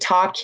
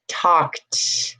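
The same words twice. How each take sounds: First: The word ends with a d sound. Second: The word ends with a t sound. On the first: The speaker calls it wrong. "I'm not saying talked" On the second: The speaker calls it right. "It's not a D, it's a T"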